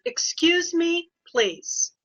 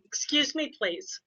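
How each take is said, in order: First: Slow, firm teacher warning, Excuse lifted high; stretched Excuse me, please to settle a class; pretend mean voice. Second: Said in the usual way. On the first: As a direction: put on a mock-stern teacher voice. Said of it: "It's her pretend mean voice". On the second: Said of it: "They all had to do was say".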